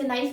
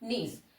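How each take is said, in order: First: The vowel sounds like 'eye', as in nice. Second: The vowel sounds like 'ee', as in niece. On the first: The speaker calls it wrong. "इसे नाइस नहीं पढ़ेंगे" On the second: The speaker calls it right. "इसे पढ़ेंगे हम नीस"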